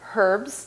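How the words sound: It is said with a sounded h.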